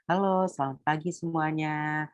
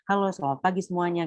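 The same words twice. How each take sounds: First: It is spoken with clear pauses between phrases. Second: It is rushed together without any pauses. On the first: The speaker calls it right. "Nah itu ada jedanya" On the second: The speaker calls it wrong. "kayak kereta"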